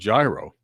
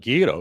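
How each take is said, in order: First: The word is pronounced the American way. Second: The word is pronounced the Greek way. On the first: This is how Americans say it. "Americans call it gyro" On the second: This is how people in Greece say it. "that's how they say it in Greece"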